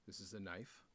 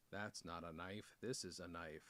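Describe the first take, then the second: First: Said in the usual way. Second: Low, soft mock-Australian accent. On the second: Unboxer showing off a knife to viewers, mock Australian accent. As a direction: lightly put on an Australian accent, pitched down. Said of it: "Do you like my Australian accent?".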